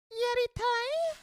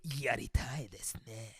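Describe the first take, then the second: First: Very high, slow squeaked Yaritai; mock squeaky take. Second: Breathy whispered pickup line; lightly voiced smooth seducer, whispered; suave whisper. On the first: Shown as a demonstration. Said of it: "That probably ruins it". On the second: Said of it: "in a suave voice".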